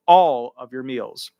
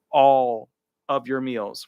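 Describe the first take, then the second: First: "all" hit hard and louder, said slowly; stress on all. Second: Said in the usual way. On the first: Shown as a demonstration. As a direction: lean on "all" as the keyword. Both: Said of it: "keyword there".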